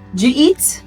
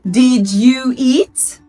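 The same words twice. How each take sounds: First: The words blend together, sounding like jeet. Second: Each word is said clearly and separately. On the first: This is how native speakers really say it. "it's more of jeet" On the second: This is how a learner expects it to sound. "A student or an English learner will expect"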